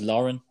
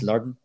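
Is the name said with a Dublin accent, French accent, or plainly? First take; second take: plain; Dublin. First: The name is said in a plain everyday way. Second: The name is said with a Dublin accent. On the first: "the way I pronounce it is Lauren" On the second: "And probably in Dublin, it's Lurden"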